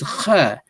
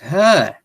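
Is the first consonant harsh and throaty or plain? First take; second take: harsh; plain. First: It starts with a harsh sound deep in the throat. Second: It starts with a plain, soft h sound. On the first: The speaker calls it right. "It's Kha. which is pharyngeal and glottal" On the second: The speaker calls it wrong. "in Amharic they got it wrong. They call it Ha"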